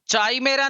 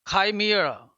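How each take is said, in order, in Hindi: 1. शब्द CH की ध्वनि से शुरू होता है। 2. शब्द K की ध्वनि से शुरू होता है। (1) "नहीं होता है" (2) "ये शुद्ध उच्चारण है"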